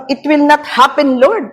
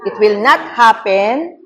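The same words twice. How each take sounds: First: Pleading with Lord, half in panic; retold plea. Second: Slow, with a rise on not; slow deliberate declaration. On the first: Pastor recalling her second fearful plea to Lord. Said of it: "Pangalawa kong". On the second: Shown as a demonstration. Preacher slowly quoting a phrase to avoid. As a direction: set the negative phrase out as an example. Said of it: "Ano yung una?".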